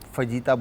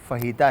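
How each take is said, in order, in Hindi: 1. बीच का व्यंजन J ध्वनि है। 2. बीच का व्यंजन एक नरम H ध्वनि है। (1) "फजीता बहुत सारे लोग बोलते हैं" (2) "सही वर्ड जो है वो फहीता है"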